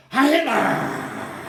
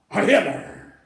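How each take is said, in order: First: Loud, long drawn-out salute shout; imitated roar of answering followers; imitated crowd salute. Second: Loud, short salute shout; imitated military chant, loud. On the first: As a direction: shout it higher, stretching the last syllable. Crowd round Hitler answers, retold. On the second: Troops saluting Hitler, retold.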